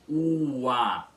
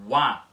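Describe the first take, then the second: First: The first vowel is drawn out long. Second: The first vowel is quick and short. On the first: The two vowels form separate syllables. The speaker calls it wrong. "não é um hiato que fica pronunciado como uá, com esse U mais longo" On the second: The two vowels form one gliding syllable. The speaker calls it right. "com o U rápido. O U breve"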